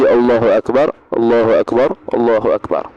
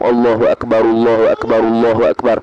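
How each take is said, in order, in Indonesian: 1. Setiap frasa dipisahkan oleh jeda. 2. Frasanya diucapkan bersambung tanpa jeda. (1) "satu kalimah per satu kalimah"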